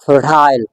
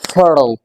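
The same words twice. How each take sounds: First: It is said in a British accent. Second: It is said in an American accent. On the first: "British English में" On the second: "American English accent"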